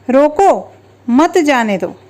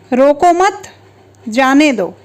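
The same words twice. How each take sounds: First: There is a pause right after the first word. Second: There is a pause right after the second word. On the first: Stop the person; do not let them go. "पहले वाक्य का अर्थ है उसे रोक लो, जाने मत दो" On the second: Do not stop the person; let them go. "दूसरे वाक्य का अर्थ होगा उसे रोकना नहीं है, जाने दो"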